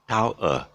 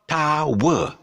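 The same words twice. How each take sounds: First: One gliding vowel sound, with no W glide. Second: Two syllables, with a W glide between them. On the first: The speaker calls it right. "It's actually a triphthong" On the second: The speaker calls it wrong. "It's not tower"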